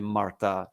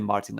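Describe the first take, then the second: First: The name is said with French pronunciation. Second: The name is said with English pronunciation. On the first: "Martin in French, you will say Martha" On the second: "but you can say Martin"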